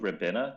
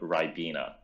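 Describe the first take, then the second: First: It is said in a non-British pronunciation. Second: It is said in the British pronunciation. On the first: The speaker calls it wrong. "that's not called Ribena" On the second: The speaker calls it right. "that's how we pronounce it over here"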